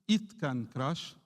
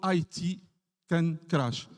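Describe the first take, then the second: First: 'It' is spoken as one ordinary word. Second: 'It' is spoken as two separate letters. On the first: It refers back to the water. "c'est juste it can crash" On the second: It refers to information technology. "je dis water can flow or I T can crash"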